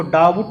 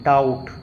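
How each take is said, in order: First: डाउट misread as two parts, dau-but; wrong pronunciation. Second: डाउट with silent B; correct pronunciation. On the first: Teacher warns against misreading, डाउट with the B sounded. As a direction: sound an extra syllable before the T in डाउट. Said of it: "तो इसको डाउट नहीं पढ़ते हैं". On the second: Teacher gives the right reading, डाउट without any B. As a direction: glide straight to the T in डाउट. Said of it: "इसको डाउट नहीं पढ़ते हैं". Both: Shown as a demonstration.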